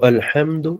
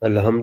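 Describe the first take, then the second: First: The h is a harsh throat sound. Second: The h is a soft breathy sound. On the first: The speaker calls it right. "تو الحمد اس کو پڑھنا ہے" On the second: The speaker calls it wrong. "الحمد نہیں پڑھنا، ورنہ لحن جلی ہو جائے گی"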